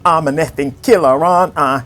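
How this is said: It is said in an imitated Yorkshire accent.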